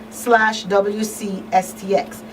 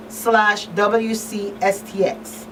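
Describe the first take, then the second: No difference in how they are said.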